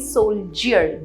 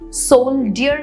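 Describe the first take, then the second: First: The middle consonant is a 'j' sound. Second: The middle consonant is a plain 'd' sound. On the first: The speaker calls it right. "ज sound है वहां पे" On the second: The speaker calls it wrong. "सोल्डियर नहीं"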